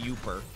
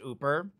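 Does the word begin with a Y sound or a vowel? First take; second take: Y sound; vowel. First: The word begins with a clear Y sound. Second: The word begins directly with a vowel sound. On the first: "As I literally say Youper" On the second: "Everyone from up here says Ooper"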